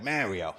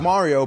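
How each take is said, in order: First: The name is said with an American pronunciation. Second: The name is said with an Italian pronunciation.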